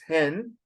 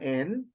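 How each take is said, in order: First: The word begins with an h sound. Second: The word begins with no h sound. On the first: The speaker calls it wrong. "we do not pronounce it as hen" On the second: The speaker calls it right. "It is an N"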